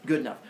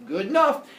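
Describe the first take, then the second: First: Said in the usual way. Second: High, loud "good enough"; breezy acceptance. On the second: Retold or imitated. Epimetheus settling for broken bits of teeth, breezy.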